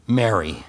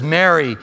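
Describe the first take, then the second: First: Tender calling by name. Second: Said in the usual way. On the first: Acted. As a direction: call her gently by name. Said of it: "He called her by name". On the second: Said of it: "Jesus says".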